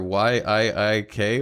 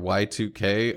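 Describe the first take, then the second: First: The name is spelled out letter by letter. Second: The name is said as 'Y two K'.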